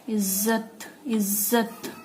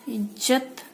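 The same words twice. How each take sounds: First: इज्जत said as izzat; nukta z. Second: इज्जत with plain j, ijjat. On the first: Teacher shows इज्जत with nukta z. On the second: Teacher says इज्जत with plain j first. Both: Shown as a demonstration. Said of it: "ज और फ के नीचे ये नुक्ता".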